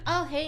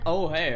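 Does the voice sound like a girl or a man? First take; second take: girl; man. First: The voice is high and girlish. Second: The voice is a normal male voice. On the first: "and another cute voice" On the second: "I got a normal man voice again"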